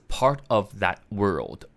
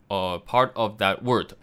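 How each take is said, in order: First: The last word is said with an L sound. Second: The last word is said without an L sound. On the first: The speaker calls it right. "所以是part of that world" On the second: The speaker calls it wrong. "很多人会念成word"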